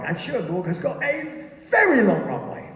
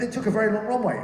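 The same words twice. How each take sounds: First: "very" stretched out and swooping high; hugely lengthened, high-pitched "very"; stress on very. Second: Said in the usual way. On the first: Real, not acted. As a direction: draw out "very" for comic size. Comic exaggeration of runway length.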